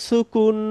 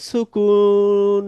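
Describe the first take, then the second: First: Said in the usual way. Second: "সুকুন" stretched very slowly, the u held long; drawn-out sukun. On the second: Shown as a demonstration. Teacher stretches "সুকুন" out slowly to end the list for the students. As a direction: let "সুকুন" ring out slowly to close the list. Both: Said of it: "আবার বলে দিচ্ছি".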